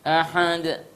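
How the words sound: The h sound is pushed through the nose. The speaker calls it wrong. "itu suara di hidung kalau seperti itu"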